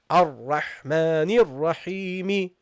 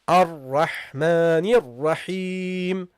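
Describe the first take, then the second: First: The last word ends with an added i vowel. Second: The last word ends on the consonant m. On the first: The speaker calls it wrong. "You don't say" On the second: The speaker calls it right. "you drop the case ending here"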